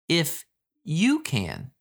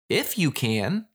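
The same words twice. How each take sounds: First: It sounds pointed, putting the burden on the listener. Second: It sounds indignant, as if saying of course I can.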